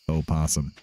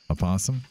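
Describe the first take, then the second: First: A full separate O sound comes first. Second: A short weak vowel comes before the P. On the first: "Spelled with an O in the front" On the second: "I guess you kind of say it"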